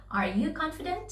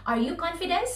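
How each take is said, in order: First: Said in the usual way. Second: "confident" ending in an S sound, as confidence; wrong word ending. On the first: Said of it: "No, you should say". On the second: Shown as a demonstration. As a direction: say "confident" with a final -nce instead of T. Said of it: "You do not say".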